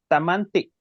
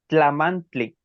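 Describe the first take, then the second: First: It is said with a plain T sound. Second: It is said with a TL sound. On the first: "en la variante T de Huejutla es tamanti" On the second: "en variante T L es tlamantli"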